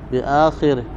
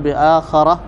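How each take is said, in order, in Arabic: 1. مدّ في أول الكلمة، كسرة بعد الخاء، والنهاية -ihi. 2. أول قصير، فتحة بعد الخاء، والنهاية -ah. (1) "مد الهمزة وكسر الخاء والراء بعدها ضمير الغائب" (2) "بفتح الهمزة والخاء والراء بعدها تاء مربوطة"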